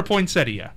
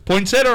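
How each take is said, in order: First: "poinsettia" said poin-SET-ee-uh, i sounded; four-syllable poinsettia. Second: "Poinsettia" said poin-SET-uh, i left out; three-syllable poinsettia. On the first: Host asks one more voter, four-syllable poin-SET-ee-uh. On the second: Host asks one more voter, three-syllable poin-SET-uh. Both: Shown as a demonstration. Polls another person on two pronunciations.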